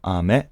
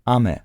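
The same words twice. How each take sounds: First: The pitch goes from low to high. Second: The pitch goes from high to low. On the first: It means candy. "the pitch gotta go from down to up" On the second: It means rain. "So up, high, low"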